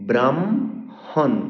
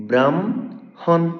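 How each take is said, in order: Both takes have the same delivery.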